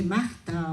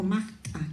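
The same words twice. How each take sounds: First: Said in the usual way. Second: "Magta" with a throaty catch before the final syllable; glottalized, aspirated. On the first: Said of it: "como el resto le dice Magta". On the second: Shown as a demonstration. Native speaker shows her southern Ayacucho "Magta", glottalized and aspirated. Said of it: "glotalizamos, aspiramos".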